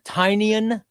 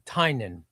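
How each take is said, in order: First: The name ends sounding like 'onion'. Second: The name ends sounding like 'nun'. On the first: The speaker calls it wrong. "like a tiny onion?" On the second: The speaker calls it right. "T I E da- uh, dash, ... N U N"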